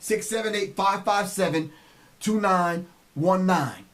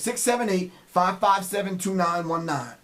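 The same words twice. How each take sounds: First: The number is said at a slower pace. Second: The number is said at a faster pace.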